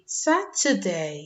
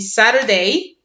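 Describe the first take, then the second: First: It is said in a British accent. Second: It is said in an American accent. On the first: "a British accent will be Saturday" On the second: "an American accent will be Saturday"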